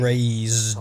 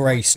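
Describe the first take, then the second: First: The middle consonant is a buzzing Z sound. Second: The middle consonant is a hissing S sound. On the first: The speaker calls it right. "There's a Z in there" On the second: The speaker calls it wrong. "It's not"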